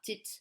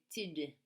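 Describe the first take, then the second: First: The syllable ends with a voiceless T sound. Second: The syllable ends with a voiced D sound. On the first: The speaker calls it wrong. "pas tit" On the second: The speaker calls it right. "S'il vous plaît, tid"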